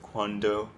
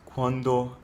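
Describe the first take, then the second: First: The d is made with the tongue on the ridge. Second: The d is made with the tongue on the teeth. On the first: The speaker calls it wrong. "instead of cuando" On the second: The speaker calls it right. "cuando instead of cuando"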